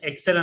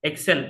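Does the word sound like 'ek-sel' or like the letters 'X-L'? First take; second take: ek-sel; ek-sel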